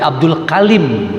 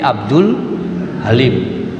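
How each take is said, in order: First: The second word begins with a K sound. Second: The second word begins with an H sound. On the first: This is the local Cirebon, Indramayu and Banyumas way of saying the name. "Kenapa pakai K? Ya logat, logat lokal" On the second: This is the Sundanese way of saying the name. "Orang Sunda pakai H"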